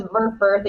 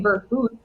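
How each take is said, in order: First: Verfurth the American way, both vowels like "fur"; Americanized pronunciation. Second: Verfurth the German way, with an umlaut-style u in the second syllable; original German pronunciation. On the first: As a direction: say Verfurth with plain English r-coloured vowels. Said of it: "So now it's Verfurth". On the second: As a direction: say Verfurth as in German, rounded "oo" vowel instead of "fur". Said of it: "It used to be Verfurth". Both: Shown as a demonstration.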